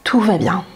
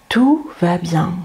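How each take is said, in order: First: Said in the usual way. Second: Slow gentle self-talk. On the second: Shown as a demonstration. Reassuring yourself during panic, slow and gentle. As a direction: ease it out slowly to yourself. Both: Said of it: "vous parler tranquillement et gentiment".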